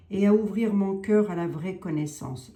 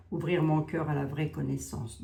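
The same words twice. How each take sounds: First: A louder solemn invocation; louder prayer invocation. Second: Said in the usual way. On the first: Acted. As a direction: proclaim "Et à ouvrir mon cœur à la vraie connaissance" to the saint. Prayer line, then repeats it.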